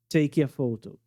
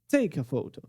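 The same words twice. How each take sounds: First: The stressed syllable of take sounds weak. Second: The stressed syllable of take sounds forceful. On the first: The speaker calls it wrong. "Não tá muito forte a tônica" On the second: The speaker calls it right. "Explode a tônica"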